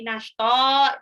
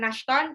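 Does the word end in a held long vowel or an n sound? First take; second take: long vowel; n sound. First: The word ends with a held long vowel. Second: The word ends with a short n sound. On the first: The speaker calls it right. "tapi nashta ditahan dua harokat" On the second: The speaker calls it wrong. "bukan nashton"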